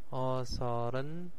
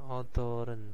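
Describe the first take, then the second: First: The middle consonant is pronounced as an s. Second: The middle consonant is pronounced as a d.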